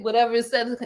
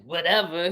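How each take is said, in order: First: Said in the usual way. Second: Lower, brushed-off "whatever"; dismissive. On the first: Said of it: "He just said". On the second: Shown as a demonstration. Demonstrating how he didn't say it, dismissive "whatever". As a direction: wave it away with disdain. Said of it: "he didn't say it in no way like".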